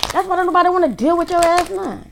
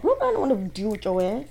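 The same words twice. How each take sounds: First: High, loud, angry scolding; pissed off. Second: Said in the usual way. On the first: Real, not acted. Reader scolding the jealous ex, loud and furious. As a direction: hurl it at them, pitch way up. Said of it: "I'm pissed off all of a sudden".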